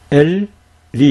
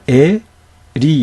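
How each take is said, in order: First: 엘 closed with an L, then 리; 엘 and 리 as two syllables, L in both; correct syllable split. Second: 에 without a closing L, then 리; wrong syllable split. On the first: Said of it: "이렇게 읽어야 되는 거죠". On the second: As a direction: split it as open 에, pause, 리. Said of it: "이렇게 읽으면 안 되고요". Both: Shown as a demonstration.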